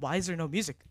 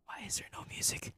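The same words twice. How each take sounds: First: Said in the usual way. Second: Soft, voiceless whisper. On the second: Real, not acted. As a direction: whisper the question under your breath. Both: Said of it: "why am I whispering?".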